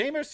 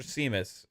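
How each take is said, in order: First: Seamus said SHAY-mus; alternative pronunciation. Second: Seamus said SEE-mus; alternative pronunciation. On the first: Co-host unsure how the name is said, Seamus as SHAY-mus. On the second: Co-host unsure how the name is said, Seamus as SEE-mus. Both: Shown as a demonstration. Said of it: "is it Seamus or Seamus".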